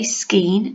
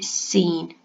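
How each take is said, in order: First: The word begins with a hard k sound. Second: The word begins with a plain s sound. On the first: The speaker calls it wrong. "I don't say skeen" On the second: The speaker calls it right. "I say seen"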